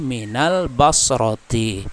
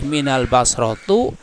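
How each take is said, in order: First: The last word ends in an i vowel. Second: The last word ends in a u vowel. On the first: The speaker calls it right. "tapi minal basroti. Kenapa kasroh?" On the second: The speaker calls it wrong. "tidak boleh minal basrotu"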